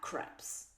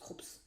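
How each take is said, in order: First: The name is said with an a-sound vowel. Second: The name is said with a u-sound vowel. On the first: The speaker calls it wrong. "avant, je prononçais ça Craps" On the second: The speaker calls it right. "ça se prononce Krups"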